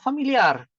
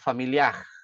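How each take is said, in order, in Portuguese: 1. O r final é vibrado com a ponta da língua. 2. O r final é um som suave, feito no fundo da boca. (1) "outro som, mais parecido ao espanhol, que é o trill" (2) "a parte de atrás da língua, ela sobe, perto do palato mole"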